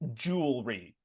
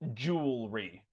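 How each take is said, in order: The two takes are said the same way.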